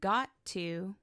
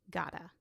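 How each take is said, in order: First: Both words are said fully and separately. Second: The words are linked and reduced together.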